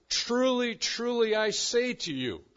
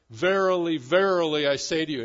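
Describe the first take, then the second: First: Each truly hit hard, louder and higher; emphatic declaration. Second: Verily, verily boomed out much louder; loud solemn declaration. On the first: Pastor quoting Jesus to Nicodemus, emphatic and louder. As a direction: proclaim it like a solemn oath. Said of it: "He speaks with emphasis". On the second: Pastor quoting the old translation, booming declaration. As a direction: ring it out like the old King James. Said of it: "with declaration". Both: Retold or imitated.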